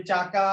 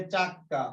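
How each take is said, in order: First: Said in the usual way. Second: চাক্কা with a long, doubled k; emphatic held k in চাক্কা; doubled consonant. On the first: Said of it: "চাকা থেকে চাক্কা". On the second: Shown as a demonstration. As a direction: pause on the k in চাক্কা, then release: chak-ka. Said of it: "শব্দকে জোর দিয়ে উচ্চারণ করার জন্য".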